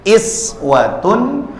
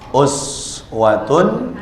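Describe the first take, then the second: First: The word begins with an 'ee' vowel. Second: The word begins with an 'oo' vowel. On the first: It refers to small, everyday examples. "tarqiq itu dengan tanda kasrah, maka dibacanya jadi iswatun" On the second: It refers to great, weighty examples. "kalau uswatun dengan dhamma"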